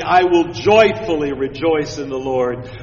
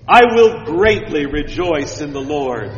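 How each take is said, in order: First: "joyfully" leaned on with emphasis; more emphatically. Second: Said in the usual way. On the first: Shown as a demonstration. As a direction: stress "joyfully" firmly. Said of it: "Or more emphatically". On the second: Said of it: "Listen again".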